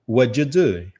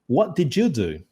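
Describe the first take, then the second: First: The words are reduced and run together. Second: Every word is pronounced fully and separately. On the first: This is how people say it in real life. "na vida real, o cara vai falar assim" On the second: This is how it is read from a text. "A gente lê desse jeito"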